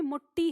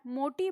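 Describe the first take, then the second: First: मुट्ठी with a doubled, held ट्ठ and a short उ; मुट्ठी said Khari boli style with a geminate ट्ठ; doubled consonant. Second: Said in the usual way. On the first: Shown as a demonstration. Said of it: "मोटी नहीं, मुट्ठी हो जाता है". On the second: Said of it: "मोटी बोलना है तो मोटी नहीं".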